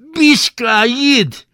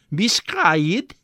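First: Very high, loud, slow bellow; shouted. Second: Slow, high drawn-out question. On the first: Attendants bellowing at the naked boy, loud yell. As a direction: roar it out of the steam. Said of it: "üvöltötte a gőzből". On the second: Bath attendant questioning the boy, slow rising tone. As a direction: ask it slowly, rising at the end. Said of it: "kérdezte a kéz tulajdonosa". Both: Acted.

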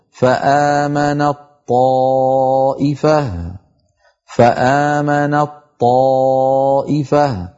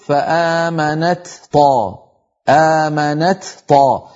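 First: Very slow faamanaṭ-ṭaaa'ifah for فآمنت طائفة, long chanted vowel; doubled heavy ta. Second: Slow فآمنت طا, light t then separate heavy ṭ; unmerged ta. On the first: Teacher reciting for students, doubled ṭ, drawn out. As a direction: merge ت of فآمنت into a strong ط. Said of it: "هكذا بطاء مشددة". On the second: Teacher showing the heaviness, two separate consonants. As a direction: release the ت of فآمنت before طا. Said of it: "لو أظهرنا نقول". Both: Shown as a demonstration.

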